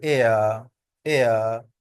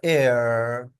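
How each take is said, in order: First: British एयर with the r dropped, ending in uh; British pronunciation. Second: American एयर with the final r sounded and held; एयर ending on a drawn-out r; American pronunciation. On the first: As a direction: glide एयर into an open uh ending. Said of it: "British हो तो हम बोलेंगे". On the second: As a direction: stretch एयर into a long American r. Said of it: "अगर American हो तो हम इसको बोलेंगे". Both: Shown as a demonstration.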